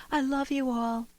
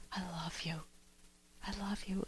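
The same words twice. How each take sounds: First: Higher, showy "I love you all"; award speech gush. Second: Breathy, hushed "I love you"; tender whisper. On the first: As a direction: gush it to the whole room. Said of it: "contrast that to somebody receiving an award". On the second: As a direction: whisper it in a lover's ear. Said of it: "in this wonderful, warm embrace". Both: Shown as a demonstration.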